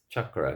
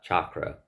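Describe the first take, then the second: First: The first vowel is a short uh sound. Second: The first vowel is an open ah sound. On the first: The speaker calls it right. "it's an uh, not an ah" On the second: The speaker calls it wrong. "it's not ah"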